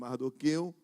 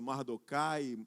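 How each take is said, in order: First: The name ends with an 'eu' sound. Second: The name ends with an 'ai' sound. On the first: This is the form the speaker chooses to use. "eu vou usar essa, essa pronúncia" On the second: This is the form some other people use. "alguns vão usar outra pronúncia"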